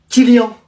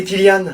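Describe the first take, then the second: First: Kylian ending in a nasal "an"; French nasal ending. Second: Kylian ending in a clear "ane"; sounded final consonant. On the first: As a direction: say Kylian as "ki-lyan" with a silent n. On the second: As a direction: say Kylian as "ki-liane". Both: Acted. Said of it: "Moi, c'est Kylian".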